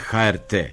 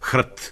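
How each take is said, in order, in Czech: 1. Hláskuje se písmeno po písmenu. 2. Vyslovuje se jako jedno slovo. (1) "a ne HRT" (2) "ustalilo da se skraćenica za hrvatsku televiziju izgovara HRT"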